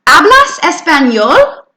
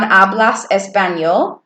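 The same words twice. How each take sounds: First: "¿Hablas español?" higher, louder, climbing at the end; rising question. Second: "Hablas español" said level, as a statement; just state it, no lift; flat statement. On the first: Teacher demonstrates a Spanish question with a rising end. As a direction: lift the voice into a question. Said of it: "brought your voice up". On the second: Teacher contrasts statement with question in "Hablas español". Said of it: "it's a statement". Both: Shown as a demonstration.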